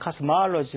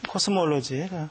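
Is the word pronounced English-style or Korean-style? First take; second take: English-style; Korean-style. First: It is said with English sounds. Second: It is said with Korean loanword sounds.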